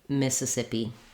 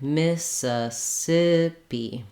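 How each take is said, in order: First: The word is said quickly and smoothly. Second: The word is said slowly, syllable by syllable. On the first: "then build up speed" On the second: "go slowly, take it one syllable at a time"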